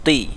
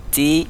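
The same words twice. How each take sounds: First: "ti" with a heavy, rounded t. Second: "ti" with a light t, held higher; softened ta with i. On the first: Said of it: "agak dibulatkan huruf to". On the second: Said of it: "huruf ta dia agak dilembutkan". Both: Shown as a demonstration.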